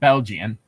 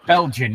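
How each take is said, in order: First: The word is said with three syllables. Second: The word is said with two syllables. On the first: The speaker calls it wrong. "I swear you put a third syllable in there" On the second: The speaker calls it right.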